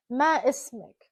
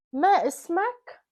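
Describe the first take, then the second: First: "Ma ismik" with the ending -ik, short i; Arabic pronunciation. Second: "Ma ismak" slow, a as in father on the ending -ak; Arabic pronunciation. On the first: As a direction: model "Ma ismik" for a woman, ending in -ik. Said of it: "If I'm asking a female". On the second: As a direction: model "Ma ismak" slowly with a rising question tune. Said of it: "if I'm asking a male". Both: Shown as a demonstration.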